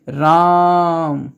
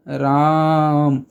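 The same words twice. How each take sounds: First: राम with the आ stretched out very long, रााााम; long drawn vowel. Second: राम with the आ held long, a bit shorter; drawn vowel again. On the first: Teacher showing students the long pluta vowel, drawn out. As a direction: hold the आ in राम like calling someone far off. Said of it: "रा मौ के बीच में जो लंबा स्वर आता है". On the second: Teacher repeating the pluta example for students, slowly drawn. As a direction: stretch the आ in राम, calling out. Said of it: "बीच में जो लंबा स्वर आता है". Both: Shown as a demonstration.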